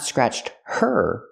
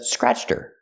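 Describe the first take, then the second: First: Her is fully pronounced with its H. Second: Her is unstressed and its H is silent.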